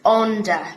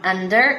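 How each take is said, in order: First: It is said with a Brummie vowel. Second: It is said with a standard English vowel.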